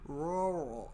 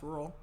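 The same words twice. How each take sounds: First: The word is drawn out with heavy R sounds. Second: The word is said quickly in one rush. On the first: The speaker calls it wrong. "I have to say the R. Like I have to be like rural, and I sound like Scooby Doo" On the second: The speaker calls it right. "If I just say it fast"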